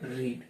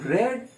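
First: The vowel is a long ee sound. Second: The vowel is a short e sound. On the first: The word is used as a past participle. "ભૂતકૃતન રીડ" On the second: The action happened in the past. "ભૂતકાળનું રેડ"

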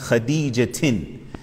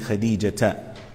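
First: The name ends with an added n sound. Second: The name ends in a plain vowel, without n. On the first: The poem's meter requires this ending. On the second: This is the normal grammatical form.

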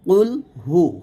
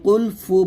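First: The second word begins with an h sound. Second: The second word begins with an f sound. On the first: The speaker calls it right. "কুল হু হু বলবেন" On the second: The speaker calls it wrong. "হা পেশ হু উচ্চারণ না করে ফা পেশ ফু উচ্চারণ করি"

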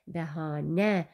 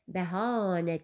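First: The stress falls on the last syllable. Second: The stress falls before the last syllable. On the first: The speaker calls it right. "vurğu sona düşür" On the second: The speaker calls it wrong. "Bəhanə demirsən ki"

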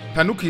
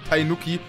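First: The first syllable is said as 'Tan'. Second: The first syllable is said as 'Tain'. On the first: The speaker calls it right. "Tanuki, nicht Tainuki" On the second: The speaker calls it wrong. "nicht Tainuki"

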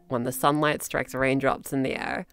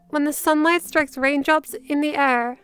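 First: The voice is creaky, with vocal fry. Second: The voice is smooth, without vocal fry. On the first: "we're going to do it with vocal fry on purpose" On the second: "the second time, we're going to not vocal fry"

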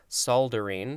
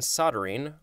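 First: It is said with an L sound. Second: It is said without an L sound.

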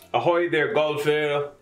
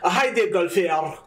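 First: Spoken in the speaker's ordinary accent. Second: Spoken in an attempted Scottish accent.

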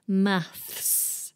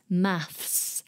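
First: The word ends with a th then s sound. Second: The word ends with a th then s sound.

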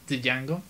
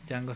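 First: The initial D sound is pronounced. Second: The initial D sound is silent. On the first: The speaker calls it wrong. "Por si querían pronunciarlo como yo una vez" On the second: The speaker calls it right. "la D muda"

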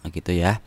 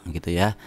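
No difference in how they are said.

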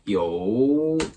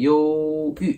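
First: The first syllable does not have a level tone. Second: The first syllable has a high level tone. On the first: It means hesitant or indecisive. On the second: It means depressed or melancholy.

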